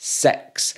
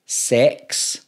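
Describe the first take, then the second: First: "Six" with a short Scottish i, close to uh-eh; intended six. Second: "Sex" with an open eh vowel; misheard sex. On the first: Scot showing viewers the word really meant, carefully enunciated. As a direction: say "Six" alone, vowel short and centred. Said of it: "I'm actually saying Scream six". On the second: YouTuber contrasting what people mishear, carefully enunciated. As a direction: say "Sex" alone, vowel clearly eh. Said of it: "They think I'm saying Scream sex". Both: Shown as a demonstration.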